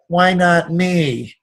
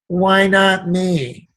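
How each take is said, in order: First: It is said in a whining, self-pitying tone. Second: It is said in a whining, self-pitying tone.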